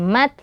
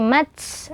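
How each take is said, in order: First: The final t has only a slight breath. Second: The final t has a long hissing breath. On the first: The speaker calls it right. "jangan sampai berlebihan pada hamesnya atau nafasnya. Jadi cukup sekedarnya saja" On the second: The speaker calls it wrong. "Jadi jangan sampai menjadi mats"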